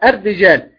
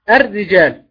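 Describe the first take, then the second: First: The r has only a slight trill. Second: The same.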